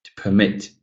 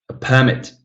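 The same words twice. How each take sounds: First: "permit" as a verb, second syllable stressed; light start, weight on MIT in "permit". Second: "permit" as a noun, first syllable stressed. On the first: Teacher models the verb for students, second-syllable stress in "permit". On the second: Teacher models the noun for students, first-syllable stress in "permit". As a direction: hit the PER in "permit". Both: Shown as a demonstration.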